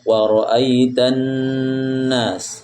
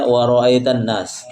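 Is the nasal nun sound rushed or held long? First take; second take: held long; rushed. First: The nasal nun sound is held long. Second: The nasal nun sound is rushed and short. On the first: The speaker calls it right. "tapi ditahan" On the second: The speaker calls it wrong. "Tadi ada masih baca wa ra'aitan nas, jangan tergesa-gesa"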